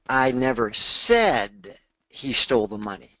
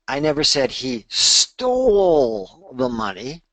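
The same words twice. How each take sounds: First: The word "said" carries the main stress. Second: The word "stole" carries the main stress. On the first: It was implied but not actually said. "I might have implied it" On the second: He may have borrowed it instead. "maybe he borrowed it"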